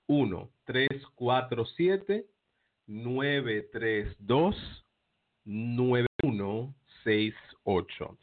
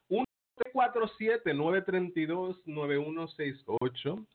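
First: The number is said slowly. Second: The number is said fast.

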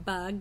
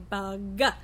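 First: The word ends cleanly on the final consonant. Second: An extra schwa vowel follows the final consonant. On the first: The speaker calls it right. "Instead of saying bug" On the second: The speaker calls it wrong. "they say bug"

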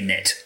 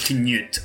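First: The name is said with an American-style vowel. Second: The name is said with a Swedish-style vowel. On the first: This is how locals commonly say it. "but we Yankees say Knit" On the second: This is the original pronunciation. "I think it's Swedish, so it's actually like Knut or something"

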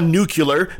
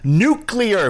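First: The word is said as nucular. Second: The word is said as nuclear. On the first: The speaker calls it wrong. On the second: The speaker calls it right.

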